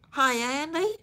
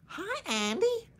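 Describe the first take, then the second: First: Higher, twangy Southern "Hi, Andy" with a rise; Gomer Pyle impression. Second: Much higher, squeaky Southern "Hi, Andy"; Gomer Pyle impression. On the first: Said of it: "replicate Gomer Pyle's accent". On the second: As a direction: push Gomer Pyle's goofy greeting up high. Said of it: "I have to really practice that".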